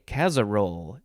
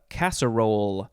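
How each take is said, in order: First: The middle consonant is a Z sound. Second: The middle consonant is an S sound.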